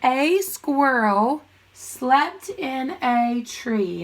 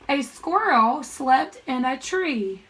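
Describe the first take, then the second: First: Very slow, word-by-word reading; drawn-out read-along for first graders; read-along pace. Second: Measured teacher read-aloud; slow model reading for pupils. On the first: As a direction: stretch each word so a class can join in. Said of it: "Read it with me". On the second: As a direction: read the sentence slowly and clearly. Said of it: "I'm gonna read the sentence". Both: Shown as a demonstration.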